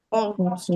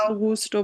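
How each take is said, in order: First: অগস্ট as first of two accepted forms; first pronunciation variant. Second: অগুস্টও with a clear "gus"; second pronunciation variant. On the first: Teacher offers students two ways to say August, first variant pronunciation. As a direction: say অগস্ট carefully, as one option. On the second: Teacher offers students two ways to say August, second variant pronunciation. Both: Shown as a demonstration. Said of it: "অগস্ট বা অগুস্টও বলে অনেকে".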